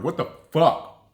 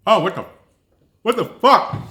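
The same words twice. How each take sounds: First: Said in the usual way. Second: High, loud disgusted outburst; shocked disgust. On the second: Real, not acted. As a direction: recoil at the taste with a yell. Disgusted reaction to the honey paste.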